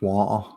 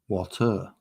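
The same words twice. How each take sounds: First: It is said in a broad Mancunian accent. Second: It is said with careful, clear enunciation. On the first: "not all manks talk like that" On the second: "Some of us can actually enunciate"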